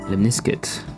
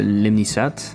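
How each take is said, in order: First: It is said as English lemniscate, with a k. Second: It is said as French lemnisat, without a k.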